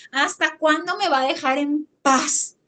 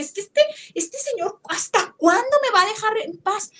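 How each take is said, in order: First: Said in the usual way. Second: Retold anger. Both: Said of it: "se enojó y dije".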